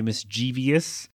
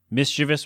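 First: Mischievous said as mis-CHEE-vee-us, with an extra syllable; common mistake. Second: Mischievous said as MIS-chi-vus, three syllables; correct way. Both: Shown as a demonstration. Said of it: "A lot of people say mischievous".

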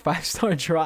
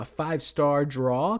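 First: Said in the usual way. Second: "draw" drawn out with a rising, questioning lilt. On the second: Shown as a demonstration. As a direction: say "draw" slowly as a tentative question, pitch climbing. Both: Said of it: "question mark?".

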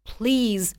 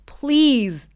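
First: Said in the usual way. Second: Begging. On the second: Acted. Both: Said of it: "begged the man".

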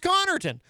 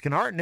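First: Connerton with the first syllable punched, higher; first-syllable stress. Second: Conarton stressed on the middle syllable; wrong-syllable stress. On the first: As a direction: say Connerton as CON-er-tun. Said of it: "it's pronounced Connerton". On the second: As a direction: say Conarton as kuh-NAR-tun. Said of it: "it's not pronounced Conarton". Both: Shown as a demonstration.

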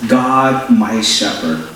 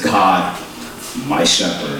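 First: Said in the usual way. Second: God, my shepherd with low falling tune on shepherd; firm settled statement, shepherd falls low. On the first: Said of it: "it's a statement". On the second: Shown as a demonstration. Pastor shows the Message wording, firm falling statement. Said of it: "it's a statement. Not a question".

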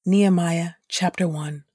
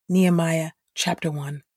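The two takes are said the same way.

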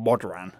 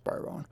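First: BODRAN read letter for letter with a sounded D; spelling pronunciation of BODRAN, D fully heard; said as spelt. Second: BORON with silent D, as 'boh-ron'; the spoken form BORON, D dropped; correct pronunciation. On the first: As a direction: say BODRAN as written, 'bod-ran'. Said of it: "It's spelt Bodran". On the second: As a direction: say BORON softly in two syllables, no D. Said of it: "but it's pronounced Boron". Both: Shown as a demonstration.

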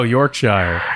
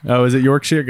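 First: "Yorkshire" slow, ending "-shire" to rhyme with fire; mistaken pronunciation. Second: "Yorkshire" with the ending said "-sheer"; corrected pronunciation. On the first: Host echoes the caller's county, "Yorkshire" as "York-shyer". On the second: Host checks with the caller, "Yorkshire" as "York-sheer". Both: Real, not acted. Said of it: "I'm an idiot".

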